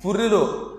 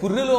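First: పుర్రిలో repeated with emphasis; stressed repeat. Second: Said in the usual way. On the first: Shown as a demonstration. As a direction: lean on పుర్రిలో as you repeat it.

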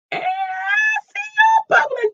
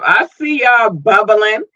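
First: Far higher squealing shout; hyped falsetto cheer; excited squeal. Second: Upbeat, a bit slow and bright; warm-up before the big repeat; lively. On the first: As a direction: scream it with delight at the fans. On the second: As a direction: say it cheerfully first. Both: Real, not acted. Repeats line much higher.

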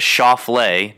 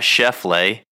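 First: "Schauffele" said slowly as SHOW-flay, the right way; careful "Schauffele" with the first vowel like "ow"; correct pronunciation. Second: "Scheffele" with the first vowel like "chef", slowed down; mocking "Scheffele" pronounced like "chef"; wrong pronunciation. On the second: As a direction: set "Scheffele" against the right way, stressing the "chef" sound. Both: Shown as a demonstration. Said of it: "is Schauffele, not Scheffele".

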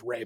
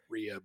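First: "Ray" as one syllable; correct name pronunciation. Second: "Rhea" in two syllables; mistaken name pronunciation. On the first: Co-host explaining the actress's name, "Ray" as one syllable. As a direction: say "Ray" to rhyme with "day". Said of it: "Her name is pronounced Ray". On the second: Co-host recalling the old mistake, "Rhea" as REE-uh. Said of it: "I used to think it was". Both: Shown as a demonstration.

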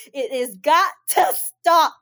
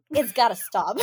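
First: Every word of "It has got to stop" slow, louder and stressed; emphatic repeat. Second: Said in the usual way. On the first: Real, not acted. Scolding women crying over men, emphatic slow repeat.

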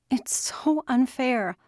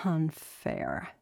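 First: High, slow, drawn-out complaint; daughter's wailed protest at injustice; anguished protest. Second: Softer, falling, weary repeat; subdued, defeated repetition; resigned echo. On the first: Acted. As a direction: stretch SO in a high upset voice. Daughter protests father's situation. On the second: A narrator's reading. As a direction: echo UNFAIR quietly, giving in. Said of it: "he repeated".

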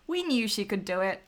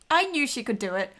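First: We leaned on at the start; stress on We. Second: I hit higher and louder; stress on I. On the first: Hosts claiming shared faith in skater, stress on We. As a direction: put the weight on "We", then run on evenly. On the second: Hosts defending the skater, stress on I. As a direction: lean hard on "I", louder than the rest. Corrects I to we, for emphasis. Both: Real, not acted.

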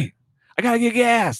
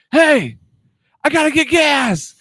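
First: High pitched call over distance; replaying the yell, a mild mock call; retold call. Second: Mock yell to a far-off lady; retold yell. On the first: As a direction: call out to be heard far off. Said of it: "No, I said". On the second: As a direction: shout it over to someone far away. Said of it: "You yelled at her?".

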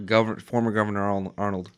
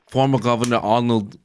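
First: Said in the usual way. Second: Mock Austrian accent on the title; Austrian-accented politician impression; Arnold's Austrian accent. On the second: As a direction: say it with dropped Austrian Rs. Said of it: "You sounded like you were Arnold".

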